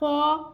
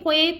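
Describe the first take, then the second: First: It is said in Arabic style, with a heavy vowel. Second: It is said in Urdu style, ending in 'e'. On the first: The speaker calls it right. "अरबी लहजे में अदा करें" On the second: The speaker calls it wrong. "Urdu तलफ़्फ़ुज़ से परहेज करें"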